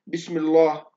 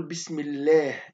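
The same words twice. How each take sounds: First: بسم الله with a heavy, dark L, the wrong way. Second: بسم الله with a thin, light L after the kasra, slowly; slow and light, keep the L in الله thin. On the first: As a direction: give الله in بسم الله a thick L to show the mistake. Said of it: "لكن هذا لا". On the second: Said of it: "نقول". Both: Shown as a demonstration.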